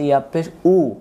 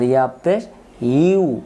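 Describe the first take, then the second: First: The final syllable is a plain 'u' sound. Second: The final syllable is a 'yu' sound. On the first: The speaker calls it wrong. "আমরা এটাকে অনেকে উচ্চারণ ভুল করে বলি ইয়া পেশ উ" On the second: The speaker calls it right. "আসলে ইয়া পেশ উ না, ... ইয়া পেশ ইউ"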